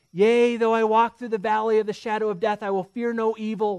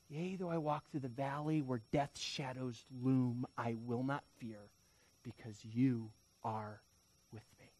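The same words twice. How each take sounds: First: Loud, raised, declaring scripture with conviction; bold psalm recitation. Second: Soft, low scripture, fading at the end; hushed psalm recitation. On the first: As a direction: proclaim the verse boldly. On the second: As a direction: recite the verse as quiet comfort. Psalm repeated as quiet comfort. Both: Acted.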